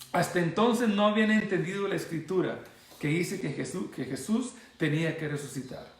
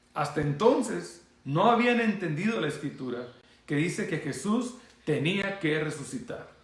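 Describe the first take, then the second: The two takes are said the same way.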